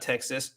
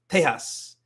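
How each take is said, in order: First: It is said with an English pronunciation. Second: It is said with a Spanish pronunciation. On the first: The speaker calls it wrong. "It's not Texas" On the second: The speaker calls it right. "It's Tejas"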